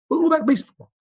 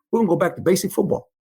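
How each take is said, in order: First: "go back to basic football" said again much higher, driving it home; emphatic repeat. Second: Said in the usual way. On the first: Retold or imitated. Coach insisting to his staff, emphatic and higher. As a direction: repeat it higher to hammer the point.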